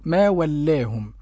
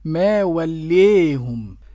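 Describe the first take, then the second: First: The long vowel is a fully open 'aa'. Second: The long vowel is tilted strongly toward 'ee'. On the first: "الفتح كما نقرأ" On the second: "والإمالة الكبرى تكون هكذا"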